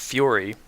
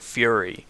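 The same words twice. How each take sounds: First: The first vowel is an older 'oor' sound. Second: The first vowel is a neutral 'er' sound. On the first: This is an older, conservative pronunciation. "an old conservative way of saying it" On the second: This is how most Americans say it today. "a more neutral uh, er vowel"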